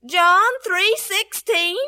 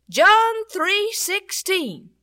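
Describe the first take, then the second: First: John three sixteen said slowly, rising in doubt; hesitant boy repeating the words; unsure, slow repeat. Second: John three sixteen spelled out slowly, each word weighted; slow, deliberate password. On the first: Boy repeating the password to the policeman, slow and unsure. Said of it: "what are you gonna say". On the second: Policeman teaching the boy his password, slow and deliberate. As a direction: say it slow and clear so he remembers. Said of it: "you say". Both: Retold or imitated.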